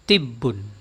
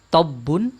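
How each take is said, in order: First: The first vowel is a close 'i' sound. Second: The first vowel is an open 'a' sound. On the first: "dengan kasroh tibbun" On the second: "dengan fathah yang dibaca dengan tabbun"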